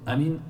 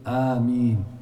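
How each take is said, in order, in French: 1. La syllabe finale a une voyelle courte. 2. La syllabe finale a une voyelle longue. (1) "par contre dire أمين ça n'existe pas" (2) "dans tous les cas il faut allonger le مين"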